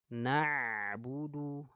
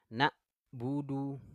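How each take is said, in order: First: The ain sound flows slightly without stopping. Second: The ain sound is held and cut off sharply. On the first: The speaker calls it right. "mengalir sedikit" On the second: The speaker calls it wrong. "nggak boleh ditahan"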